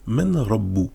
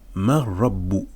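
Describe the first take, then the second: First: The n sound is pronounced before the r. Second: The n merges fully into the r, without nasality. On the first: "normalement on devrait dire" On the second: "mais on va dire mar rabbu"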